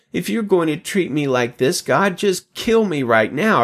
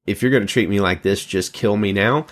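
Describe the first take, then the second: First: A touch of Moses's raised, slowed despair on kill; mildly hammed-up plea to God to end it; lightly voiced Moses begging to die, stressing kill; dramatic plea. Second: Put-on fast, tossed-off teen whine; mock teenager rushing a dramatic plea; teenage drama queen. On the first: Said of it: "Moses says". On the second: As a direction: rattle it off like a sulky teenager. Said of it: "That sort of sounds like a teenager".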